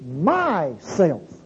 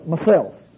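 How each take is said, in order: First: The two words are said apart, with a break. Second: The two words are run together as one. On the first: The speaker calls it right. "It's my self" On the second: The speaker calls it wrong. "too many times we run the words together"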